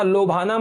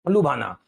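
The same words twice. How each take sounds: First: "लोभाना" with a long o first, LO; wrong form. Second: "लुभाना" lower, with a short u first, LU; correct form. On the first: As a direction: say "लोभाना" as lo-bhaa-naa. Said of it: "मत लिख देना". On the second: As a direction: say "लुभाना" as lu-bhaa-naa, falling at the end. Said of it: "लोभाना मत लिख देना". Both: Shown as a demonstration.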